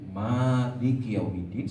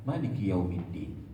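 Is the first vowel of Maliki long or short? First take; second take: long; short. First: The first vowel of Maliki is long. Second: The first vowel of Maliki is short. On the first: It follows the reading that keeps the alif. "baca dengan isbat alif" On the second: It follows the reading that drops the alif. "baca tanpa isbat alif"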